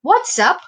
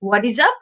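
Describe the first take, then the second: First: It is contracted into two syllables. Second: All three words are said separately in full. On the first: "short form হচ্ছে what's up"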